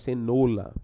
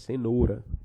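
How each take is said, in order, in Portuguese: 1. A consoante do meio soa como um l. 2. A consoante do meio soa como um r. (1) "não é cenoura" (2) "É cenoura"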